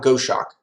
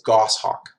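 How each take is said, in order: First: The second part sounds like 'shock'. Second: The second part sounds like 'hawk'. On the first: The speaker calls it wrong. "not Go Shock" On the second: The speaker calls it right. "I think it's Goshawk"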